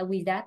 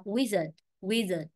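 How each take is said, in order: First: "wizard" as wi-ZAT, full second vowel; wrong stress. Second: "wizard" as WI-zə, second syllable reduced; WIZ-ard, model "wizard"; stress on first syllable. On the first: Teacher shows what not to say, wrong stress. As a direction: misread "wizard" with a clear A at the end. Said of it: "Chứ không phải là wizard". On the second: Teacher explains where the stress falls, stress on first syllable. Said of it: "Trọng âm, âm tiết một rồi". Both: Shown as a demonstration.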